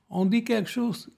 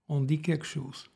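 First: It is said with a raised, stronger tone. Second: It is said at a calmer, lower level.

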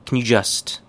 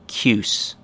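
First: The words blend slightly, keeping a faint 'you'. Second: All three words merge into one short syllable. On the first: "More correct" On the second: "most chewing gum-like pronunciation"

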